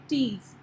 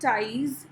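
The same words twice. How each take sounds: First: "teas" with a long ee sound; ee-vowel variant. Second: "ties" with a long eye sound; eye-vowel variant. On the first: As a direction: say "teas" to rhyme with "please". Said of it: "either we say teas". ("teas" में लंबी ई की आवाज़) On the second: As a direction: say "ties" to rhyme with "prize". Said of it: "Either we say ties". ("ties" में आइ की आवाज़) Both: Shown as a demonstration.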